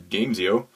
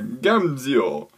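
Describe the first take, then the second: First: It is said with a plain English accent. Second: It is said with an Italian accent.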